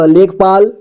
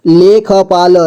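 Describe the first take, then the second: First: Said in the usual way. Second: लेखपाल with ख given its own vowel; syllable by syllable. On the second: Shown as a demonstration. Teacher breaking down लेखपाल for learners, syllable by syllable. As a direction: sound out लेखपाल piece by piece. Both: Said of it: "जोड़ जोड़ करके".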